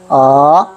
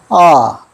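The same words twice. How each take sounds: First: The pitch rises from low to high. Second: The pitch falls sharply straight down. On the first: "밑에서 위로" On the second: "바로 내려갑니다"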